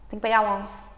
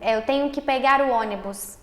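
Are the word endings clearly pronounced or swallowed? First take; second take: swallowed; clearly pronounced. First: The word endings are swallowed and words run together. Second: The word endings are pronounced fully and clearly.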